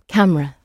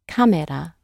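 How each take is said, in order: First: It is said as the English word camera. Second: It is said as the Japanese loanword kamera. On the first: "That's right" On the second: "These words that they take into their own language are then adjusted to fit the pronunciation"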